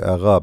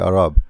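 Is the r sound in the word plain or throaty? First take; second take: throaty; plain. First: The r is a throaty, gargled sound. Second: The r is a plain, non-throaty sound.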